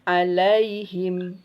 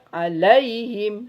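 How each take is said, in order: First: The 'ai' sound is said softly and smoothly. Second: The 'ai' sound is jerked with force. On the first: The speaker calls it right. "tapi lembutkan" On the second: The speaker calls it wrong. "tidak alaihim, tidak boleh"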